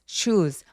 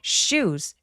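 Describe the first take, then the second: First: The s sound is soft and lax. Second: The s sound is strong and tense. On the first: The speaker calls it wrong. "혀에 힘이 많이 안 들어가는 소리" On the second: The speaker calls it right. "쌍시옷처럼 과장되게 발음해 주세요"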